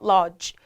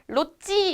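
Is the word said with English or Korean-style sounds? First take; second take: English; Korean-style. First: It is said with natural English sounds. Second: It is said with Korean-style syllables and vowels. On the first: The speaker calls it right. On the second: The speaker calls it wrong.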